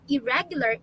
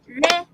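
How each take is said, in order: First: Said in the usual way. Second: "irregular" in four widely separated beats; syllable by syllable. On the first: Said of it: "For irregular, it's". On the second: Shown as a demonstration. Teacher claps out four syllables, beat by beat. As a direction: break "irregular" into i-re-gu-lar, pausing after each. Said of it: "That's four syllables".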